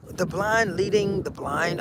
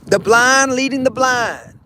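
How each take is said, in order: First: Puzzled echo. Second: Wise elder saying. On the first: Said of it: "kid echoes quietly". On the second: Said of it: "saying delivered as elder". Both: Retold or imitated.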